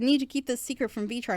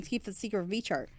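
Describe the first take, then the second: First: Said in the usual way. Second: Softer, dropping the line as she walks in; cut-off quieter take. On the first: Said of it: "let's say I said". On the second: Shown as a demonstration. Telling a friend to keep a gift secret, cut off softly. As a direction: caught mid-sentence, hushing the words. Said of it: "she came on right as I was saying".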